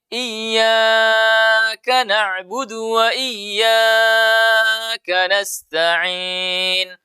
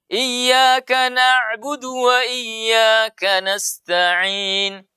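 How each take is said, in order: First: The long vowels are stretched out excessively. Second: The long vowels are held for a moderate length. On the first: The speaker calls it wrong. "Salah. Kelebihan" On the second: The speaker calls it right. "itu dua harakat"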